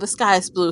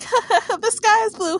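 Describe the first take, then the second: First: It is spoken in a plain, ordinary voice. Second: It is spoken through laughter.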